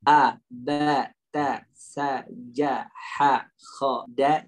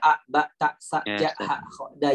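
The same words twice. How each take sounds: First: The letters are articulated fully and distinctly. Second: The letters are articulated plainly and loosely. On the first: The speaker calls it right. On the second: The speaker calls it wrong. "bukan hanya sekedar kita baca"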